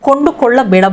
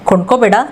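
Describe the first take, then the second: First: The word is said in its full form. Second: The word is said in a shortened form. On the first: This is the form used in writing and reading. "इसको हम किताब योशन में इस्तेमाल करते हैं" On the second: This is the form used in everyday speech. "इधर spoken में बोलते हैं"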